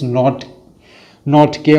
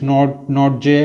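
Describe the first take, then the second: First: The surname ends with a 'K' sound. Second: The surname ends with a 'J' sound. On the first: "as I have heard in the commentary box here. I think it's not not K or something" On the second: "the pronunciation I think is different"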